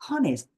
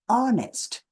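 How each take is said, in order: First: The word starts with an h sound. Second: The word starts with a vowel sound. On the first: The speaker calls it wrong. "it is not honest. Don't pronounce with honest" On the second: The speaker calls it right. "It is pronounced like honest"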